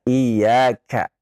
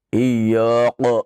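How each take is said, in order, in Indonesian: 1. Bunyi k itu tipis dan ringan. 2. Bunyi k itu tebal dan berat. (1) "Harusnya iyyaka dibaca tipis" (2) "dia membaca dengan ya, eh, dengan tebal ... ini keliru"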